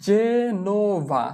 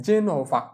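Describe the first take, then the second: First: Slow sounding-out. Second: Said in the usual way. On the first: Shown as a demonstration. Teacher showing learners how to write Genova, slowly sounded out. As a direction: stretch Genova into three long syllables, je-no-va. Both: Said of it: "জেনোভাকে আমরা কিভাবে লিখব".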